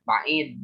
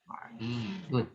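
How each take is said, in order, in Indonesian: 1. Kata ini berakhir tanpa vokal akhirnya. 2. Kata ini berakhir dengan akhiran lengkap. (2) "kalau ahli bahasa ya nahu sorof khususnya atau baca kitab itu harus dibaca"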